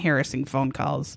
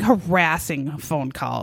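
First: The first syllable sounds like 'hair'. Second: The first syllable sounds like 'har'. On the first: The speaker calls it wrong. "She was not having harassing phone calls" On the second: The speaker calls it right. "She was having harassing phone calls"

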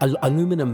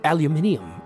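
First: It is said in an American pronunciation. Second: It is said in a non-American pronunciation.

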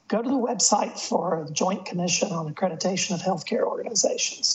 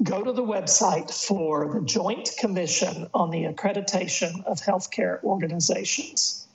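First: It is said fast. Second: It is said slowly.

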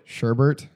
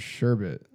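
First: The second syllable has an R sound. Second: The second syllable has no R sound. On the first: The speaker calls it wrong. "I put an R at the end and called it" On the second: The speaker calls it right. "there's no R in the second syllable"

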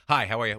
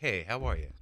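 First: The greeting sounds hurried and insincere. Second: The greeting sounds warm and sincere.

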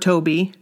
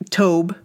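First: The name has two syllables, ending in ee. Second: The name has one syllable, rhyming with Job. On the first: "I'm saying Toby" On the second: "I bet it is Tobe, like Job"

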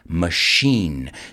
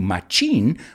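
First: The word begins with an 'sh' sound. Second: The word begins with a 'ch' sound. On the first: The speaker calls it right. "we say machine" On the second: The speaker calls it wrong. "We don't say machine"

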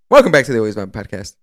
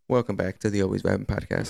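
First: It is said with high energy. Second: It is said with low energy.

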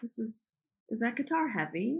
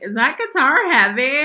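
First: The question is asked in a soft, smooth tone. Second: The question is asked in a plain, blunt tone. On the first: This is how the speaker really asked it. The speaker calls it right. "I said it in a much smoother way" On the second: This is not how the speaker really asked it. The speaker calls it wrong. "I didn't say it like that"

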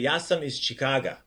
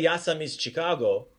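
First: The city name ends with an a vowel. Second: The city name ends with an o vowel. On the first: The speaker calls it right. "You'd say" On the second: The speaker calls it wrong. "So you don't say"

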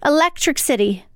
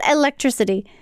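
First: The word is split oddly, like two words. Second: The word is said smoothly in the usual way. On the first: This imitates an elderly relative's pronunciation. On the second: This is the ordinary pronunciation.

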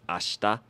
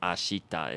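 First: The vowel after 'sh' is silent, almost dropped. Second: The vowel after 'sh' is clearly pronounced. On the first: "it's ashta" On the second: "instead of ashita"

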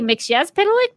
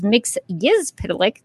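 First: The second syllable starts with a y sound. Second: The second syllable starts with a g sound. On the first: This is the speaker's former pronunciation. "I used to say" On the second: This is the official pronunciation. "The official pronunciation is"

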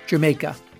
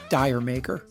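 First: It sounds like the word Jamaica. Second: It sounds like the words dire maker. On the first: The speaker calls it right. "should be pronounced Jamaica" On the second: The speaker calls it wrong. "but not Dire Maker"

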